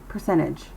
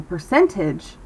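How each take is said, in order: First: "percentage" with the T silent after the N, like "percennage"; dropped T. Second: "percentage" with a fully sounded T after the N; overpronounced T. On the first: Teacher models the casual American way, "percentage" without T. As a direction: let the N swallow the T in "percentage". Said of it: "it keeps its voice down". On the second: Teacher shows students what to avoid, overpronounced T in "percentage". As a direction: pronounce the T in "percentage" crisply. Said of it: "instead of saying". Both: Shown as a demonstration.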